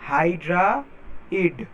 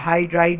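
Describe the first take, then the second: First: The word is split, with a forceful final d. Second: The word is said smoothly as one unit. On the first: The speaker calls it right. "ড উচ্চারণ হবে লাস্টে" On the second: The speaker calls it wrong. "না"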